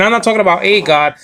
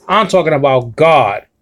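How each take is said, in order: First: Quick line leaning on "a" before "God"; stress on A. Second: "God" stressed at the end with a falling tune. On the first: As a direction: set "a" apart, said as a full word before "God". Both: Shown as a demonstration. Contrasts a God with God.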